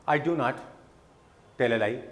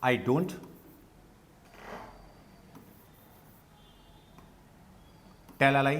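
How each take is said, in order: First: Do not is said as two full words. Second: Do not is contracted into one word.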